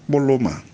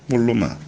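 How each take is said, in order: The two takes are said the same way.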